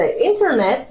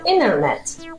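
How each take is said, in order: First: The t after the n is clearly pronounced. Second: The t is dropped after a nasal n.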